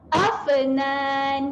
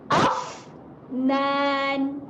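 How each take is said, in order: First: The f is clipped with a bouncing release. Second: The f is released with audible air. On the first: The speaker calls it wrong. "itu adalah bacaan yang salah" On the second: The speaker calls it right. "kita kena lepaskan angin untuk mengelakkan bunyi lantunan"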